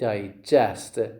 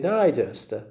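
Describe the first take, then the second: First: The stress is on the second syllable. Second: The stress is on the first syllable. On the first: It is used as a verb. The speaker calls it right. "You say digest" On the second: It is the stress pattern of the noun. The speaker calls it wrong. "You never say digest"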